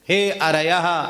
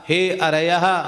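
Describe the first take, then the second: First: The word is said with an R sound. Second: The word is said with an R sound.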